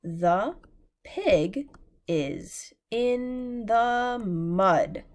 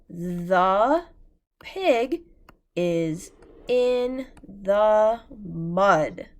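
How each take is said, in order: First: The pig is in the mud, each word slow and separate; slow choral reading. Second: The pig is in the mud read word by word, very slow and loud; slow choral reading. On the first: Teacher rereading the sentence with class, very slow. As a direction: read it slowly together again. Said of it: "let's read it together one more time". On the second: Teacher reading the sentence together with class, slow and loud. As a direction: read it slowly so the class can follow. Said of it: "let's read that sentence together". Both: Shown as a demonstration.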